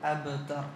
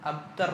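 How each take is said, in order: First: The b is said with a short bouncing release. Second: The b is said plainly, without a bounce. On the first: The speaker calls it right. "കാരണം കുത്തുബുജത്തിൻ്റെ അക്ഷരാണ്" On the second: The speaker calls it wrong. "അബ്തർ എന്നല്ല"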